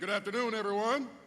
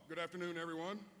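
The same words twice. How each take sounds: First: It is said strongly, with much energy. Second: It is said weakly, with little energy.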